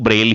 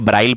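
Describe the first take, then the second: First: The vowel after 'br' is 'e'. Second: The vowel after 'br' is 'ai'. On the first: The speaker calls it right. "शुद्ध word की बात करेंगे वो ब्रेल ही होगा" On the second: The speaker calls it wrong. "कई जगह ब्राइल पढ़ा हो"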